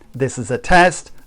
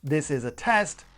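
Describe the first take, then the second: First: The sound is far too loud. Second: The sound is rich and crisp. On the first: The speaker calls it wrong. "the Amazon Basics is far too loud" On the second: The speaker calls it right. "The Rode is a lot richer sound and is a lot crisper"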